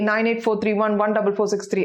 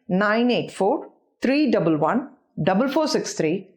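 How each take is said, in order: First: The digits run together without any pauses. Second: The digits are grouped with pauses between groups. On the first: "at a stretch" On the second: "split up into chunks"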